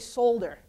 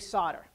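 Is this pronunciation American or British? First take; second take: British; American. First: It is said with a British pronunciation. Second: It is said with an American pronunciation. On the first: "In the U K, they'll say solder" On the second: "but here we say solder"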